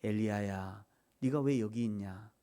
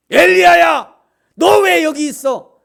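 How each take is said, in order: First: Low, soft, gentle question; hushed, gentle voice of God; still small voice. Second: High, very loud scolding shout; full-force shout, drawn out at the end; booming yell. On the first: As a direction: call the name softly and low. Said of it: "세미한 음성으로 와서 세미한 음성이". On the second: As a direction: bellow it as a furious summons. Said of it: "그렇게 얘기한 게 아니라". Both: Shown as a demonstration.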